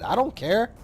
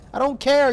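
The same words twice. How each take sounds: First: Said in the usual way. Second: Louder, higher insistence. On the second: Real, not acted. Repeats louder for emphasis.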